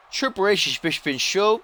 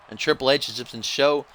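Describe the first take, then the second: First: High-pitched echo of his own slip; mock repeat. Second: Said in the usual way. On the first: Commentator echoing his own fumbled line, high mock repeat. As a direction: repeat the fumbled words much higher.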